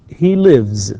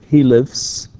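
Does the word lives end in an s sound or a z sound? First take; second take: z; s. First: The final sound is a voiced z. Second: The final sound is a voiceless s. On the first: The speaker calls it right. "ends with voiced sounds" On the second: The speaker calls it wrong. "not he lives, no"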